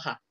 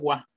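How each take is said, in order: First: The particle starts with an h sound. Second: The particle starts with a w sound. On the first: The speaker calls it wrong. "No ja" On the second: The speaker calls it right. "esta se pronuncia wa"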